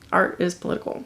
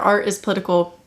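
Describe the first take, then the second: First: The phrase is said at a quieter volume. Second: The phrase is said at a louder volume.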